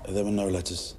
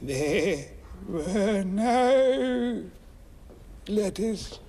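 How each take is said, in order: First: It is said in the speaker's natural voice. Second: It is said in an altered, put-on voice.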